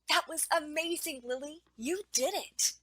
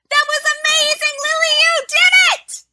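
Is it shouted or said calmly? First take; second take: calmly; shouted. First: It is said calmly and quietly. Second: It is shouted with high energy.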